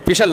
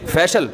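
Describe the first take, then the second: First: فیشل with a short i, like "fishal"; tentative mispronunciation. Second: فیشل with a long e, like "FAY-shul"; corrected pronunciation. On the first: Preacher checking a word with listeners, short-vowel mispronunciation "fishal". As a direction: say فیشل as "FISH-ul". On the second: Preacher correcting himself before listeners, careful "fayshal". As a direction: open the first vowel of فیشل to "fay". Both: Shown as a demonstration. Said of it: "صحیح pronunciation بلوایا کرو".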